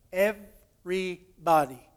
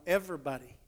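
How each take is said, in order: First: "everybody" broken into slow, separate syllables; emphatic syllable-by-syllable. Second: Said in the usual way. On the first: Retold or imitated. King insisting nobody is exempt, slow emphatic syllables on "everybody".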